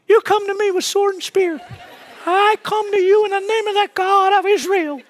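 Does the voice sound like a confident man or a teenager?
teenager. It is said in a young teenager's voice.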